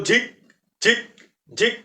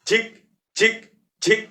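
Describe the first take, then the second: Both takes have the same delivery.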